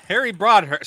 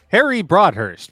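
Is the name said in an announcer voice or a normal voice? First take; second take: normal; announcer. First: It is said in a plain, everyday voice. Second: It is said in a put-on announcer voice.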